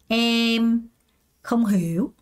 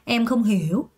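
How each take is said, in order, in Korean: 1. 천천히, 한 단어씩 말해요. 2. 빠르게, 한 번에 말해요. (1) "맨 처음에 이렇게 하다가" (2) "좀 또 빨리 해서 그냥 한 번에"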